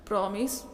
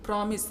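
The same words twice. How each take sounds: First: promise with a questioning rise at the end; asking promise. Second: promise as a settled statement, no rise; firm promise. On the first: Bhanu asking her cousin to promise, promise rising like a question. She asks, he answers. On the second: Cousin reassuring Bhanu, promise said firmly with a falling end. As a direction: answer promise plainly and surely, falling. He answers her question. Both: A narrator's reading.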